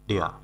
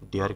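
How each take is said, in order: First: The word ends without any r sound. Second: The word ends with an audible r sound. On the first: The speaker calls it right. "সঠিক উচ্চারণ হলো" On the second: The speaker calls it wrong. "ডেয়ার কিন্তু সঠিক উচ্চারণ না"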